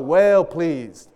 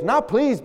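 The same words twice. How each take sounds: First: WELL stretched out long before "pleased"; slow, drawn-out WELL, then "pleased"; stress on WELL. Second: Said in the usual way. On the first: Shown as a demonstration. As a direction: linger heavily on the word "well". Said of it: "Not pleased, but well pleased". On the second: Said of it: "but well pleased".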